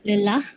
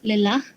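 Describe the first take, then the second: The two takes are said the same way.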